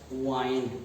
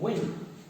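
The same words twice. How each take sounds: First: The vowel is long, not clipped. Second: The vowel is short and quick. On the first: It means to wrap. "the second pronunciation of the same spelling" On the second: It names moving air. "it is spoken quickly"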